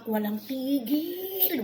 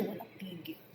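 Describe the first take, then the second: First: Very slow, high, stretched TIGIL; drawn-out emphasis. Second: Said in the usual way. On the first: Real, not acted. Vlogger fed up with endless nagging, stretching "Walang tigil" out high. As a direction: drag out "tigil" as if it never ends.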